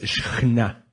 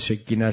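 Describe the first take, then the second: First: The middle consonant is a throaty sound. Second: The middle consonant is a plain k. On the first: The speaker calls it right. "sino es Shekhinah" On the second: The speaker calls it wrong. "No es Shekinah"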